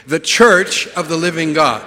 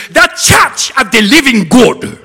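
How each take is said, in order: First: Said in the usual way. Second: Loud, high, slow African accent. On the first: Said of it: "So let's say together". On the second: Shown as a demonstration. Showing how it is said in Africa, booming African accent. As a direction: proclaim it with a strong African accent. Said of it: "So in Africa, that is".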